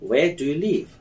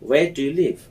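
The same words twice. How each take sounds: Both takes have the same delivery.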